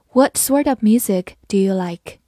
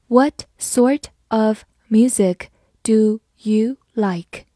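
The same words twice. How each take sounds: First: Said in the usual way. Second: Slow, careful model reading. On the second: Shown as a demonstration. Teacher reading slowly to the class. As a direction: read it slowly for learners. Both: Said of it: "好，慢慢来读".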